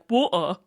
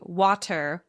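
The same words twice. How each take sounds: First: The T sound in the middle is dropped. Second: The T sound in the middle is pronounced.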